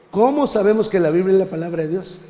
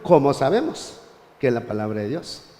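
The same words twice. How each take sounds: First: "¿Cómo sabemos que la Biblia es la palabra de Dios?" read with a rising question tune. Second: "¿Cómo sabemos que es la palabra de Dios?" read without question tune, dropping low at the end; afirmación sin entonación de pregunta; as a statement. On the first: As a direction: ask it, lifting the pitch as a real question. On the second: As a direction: say it flat as an affirmation, no question lift. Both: Shown as a demonstration. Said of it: "Le quitamos el signo de interrogación y decimos".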